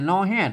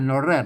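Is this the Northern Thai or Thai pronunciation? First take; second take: Northern Thai; Thai. First: It is said with the Northern Thai pronunciation. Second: It is said with the standard Thai pronunciation. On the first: The speaker calls it right. "นอแฮดนะไม่ใช่นอแรด" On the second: The speaker calls it wrong. "นอแรดมันไทยนะครับ"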